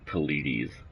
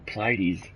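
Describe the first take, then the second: First: An extra vowel comes between the P and L. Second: The P and L are joined with no vowel. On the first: The speaker calls it wrong. "There's no A or E in between the P and the L" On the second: The speaker calls it right. "with no extra like uh, syllable in there"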